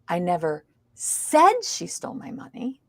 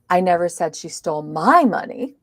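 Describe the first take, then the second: First: The stress is on the word said. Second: The stress is on the word my. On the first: It may have been implied, not said. "It means I didn't say it. I might have implied it" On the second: It was someone else's money. "it was somebody else's money"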